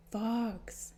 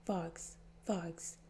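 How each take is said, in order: First: Said in the usual way. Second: Soft urgent whisper. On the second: Acted. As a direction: hiss his name under your breath. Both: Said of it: "crowded him and whispered".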